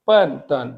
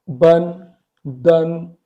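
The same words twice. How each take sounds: First: "पन तन" with voiceless p and t, pitch falling; correct Chinese pronunciation. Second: "बन, दन" with voiced b and d; two separate syllables, "बन" then "दन", as spelt; learner's misreading. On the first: Teacher correcting the misreading, crisp voiceless "पन तन". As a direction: drop the pitch on each syllable of "पन तन". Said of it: "actually ये है". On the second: Teacher showing how learners would read it, voiced "बन, दन". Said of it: "आप इसको कर रहे होंगे". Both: Shown as a demonstration.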